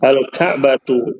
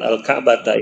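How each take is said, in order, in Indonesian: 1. Kata itu berakhir dengan vokal u. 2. Kata itu berakhir dengan vokal a.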